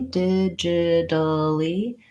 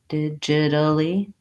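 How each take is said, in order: First: The word is said slowly and drawn out. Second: The word is said quickly at normal speed. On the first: "If I have to go slowly" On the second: "and then speed up"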